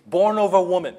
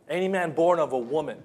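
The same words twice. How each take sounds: First: Louder, higher "born of a woman", leaning hard on every word; stress on born of a woman. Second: Said in the usual way. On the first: Shown as a demonstration. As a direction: hammer "born of a woman" home as the point. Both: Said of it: "that emphasizes his moral ability".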